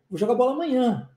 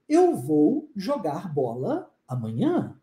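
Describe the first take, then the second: First: The words run together like one word. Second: Each word is said separately and carefully. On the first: The speaker calls it right. "Olha só a junção de palavras" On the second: The speaker calls it wrong. "Quem é que fala assim? Ninguém fala assim"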